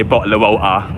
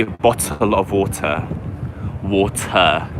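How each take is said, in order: First: East London "bottle of water" with dropped t's; glottal-stop East London "bottle of water"; East London accent. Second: "bottle of water" with every t crisply sounded; posh city-centre "bottle of water", t's fully said; posh London pronunciation. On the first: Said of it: "I don't say". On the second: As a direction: pronounce the t clearly in "bottle" and "water". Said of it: "I say". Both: Shown as a demonstration.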